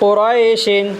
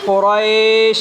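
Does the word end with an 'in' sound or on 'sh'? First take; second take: in; sh. First: The word ends with an added 'in' sound. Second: The word ends abruptly on the 'sh' sound. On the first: The reading continues without a stop. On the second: The reader stops at this word.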